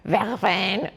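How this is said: The word is said with a French pronunciation. "I'm sure is how the French say it. Just like that"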